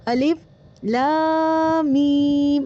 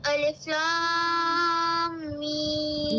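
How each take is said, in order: First: الف cut off, then a breath before لام میم; mock broken-up reading; choppy separated reading. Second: الف لام میم chanted in one connected breath; joined reading. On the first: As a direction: imitate the student breaking الف from لام میم. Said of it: "آپ ایسے پڑھ رہی ہیں". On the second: Shown as a demonstration. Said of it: "ایک بار پھر سے پڑھیں".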